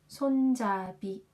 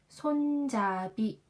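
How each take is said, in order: No difference in how they are said.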